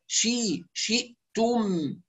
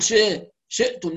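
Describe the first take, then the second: First: "شئتم" slowly with a pure i, "shi'tuum"; complete i. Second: "شئتم" with i loosened to e, "she'tum"; slackened i. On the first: Teacher corrects the slack vowel, complete i. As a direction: sharpen the first vowel of "شئتم" to full i. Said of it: "ونتم كسرة الشين". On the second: Teacher shows what to avoid, slackened i. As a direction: let the first vowel of "شئتم" sag to e. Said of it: "لا نقول". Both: Shown as a demonstration.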